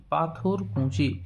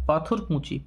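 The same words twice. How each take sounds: First: Slow repeat. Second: Said in the usual way. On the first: Shown as a demonstration. Teacher repeats answer slowly.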